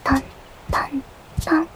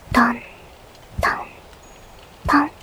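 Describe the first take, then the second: First: The taps are voiced at a faster pace. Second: The taps are voiced at a slow pace. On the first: "もうちょっと早く、" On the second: "ゆっくり、"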